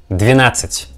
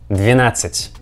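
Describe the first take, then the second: No difference in how they are said.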